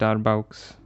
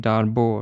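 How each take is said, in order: First: The name is said in an anglicized way. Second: The name is said in a French-style way. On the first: The speaker calls it wrong. "This is not the pronunciation" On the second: The speaker calls it right. "It's a French name, I suppose. So it's probably Darboux or something"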